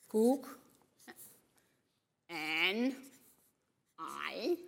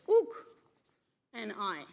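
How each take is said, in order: First: The starting K sound is clearly pronounced. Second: The starting K sound is left silent. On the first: "This is option A" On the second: "sometimes a K in the beginning of a word is not pronounced"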